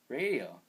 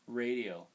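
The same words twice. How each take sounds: First: It is said with startled, alarmed emotion. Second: It is said calmly and flatly, without alarm. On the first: The speaker calls it right. "you say it like that" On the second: The speaker calls it wrong. "you wouldn't talk like that in real life"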